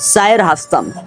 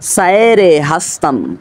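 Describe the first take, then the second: First: The two words join without a linking vowel. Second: An extra 'e' vowel links the two words. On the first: The speaker calls it right. "বরং উচ্চারণ হবে এরকম" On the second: The speaker calls it wrong. "এরকম বললে ভুল হবে উচ্চারণ"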